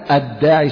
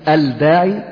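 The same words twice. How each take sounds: First: The 'l' is silent, merged into a doubled 'd'. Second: The 'l' of the article is clearly pronounced. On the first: The speaker calls it right. "من غير نطق اللام لأنها لام شمسية" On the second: The speaker calls it wrong. "لا تقول الداعي"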